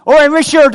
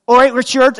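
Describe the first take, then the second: First: Loud, high, punchy Bristol hail over the fence; exaggerated Bristol "All right, Richard" with an edge; broad Bristol accent. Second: A light Bristol greeting, a bit louder; chirpy Bristol "All right, Richard"; Bristol accent. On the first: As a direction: belt it out like a blunt Bristol neighbour. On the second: Retold or imitated. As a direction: Bristol neighbour's hello, lightly done. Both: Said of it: "that's why the accent".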